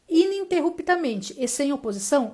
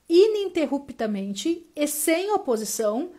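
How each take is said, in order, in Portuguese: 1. Ela é lida mais rápido. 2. Ela é lida mais devagar.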